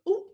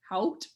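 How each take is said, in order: First: It is said with a French pronunciation. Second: It is said with an English pronunciation. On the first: "the French word is actually pronounced ooh" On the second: "in English, it's kind of like hot"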